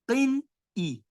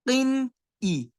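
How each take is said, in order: First: The n sound is fully and clearly pronounced. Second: The n sound is fully and clearly pronounced.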